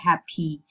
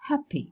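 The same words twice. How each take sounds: First: The final vowel is long and full. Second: The final vowel is short and weak. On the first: The speaker calls it wrong. "It's not happy" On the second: The speaker calls it right. "It's a weak fleece. It's shorter"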